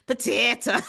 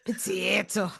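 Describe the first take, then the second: First: Potato said as "pa-tee-ta" in a put-on Irish voice; mock Irish accent. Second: Softer "potato." with an Irish "pa-tee-to"; mock Irish accent. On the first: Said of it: "Give me some Irish". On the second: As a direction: murmur "potato." in a stage Irish voice. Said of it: "So ridiculous and bad".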